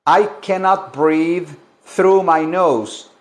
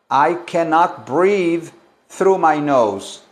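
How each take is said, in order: Both takes have the same delivery.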